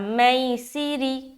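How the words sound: It is said softly and gently. The speaker calls it right. "हमें नरमी के साथ अदा करना"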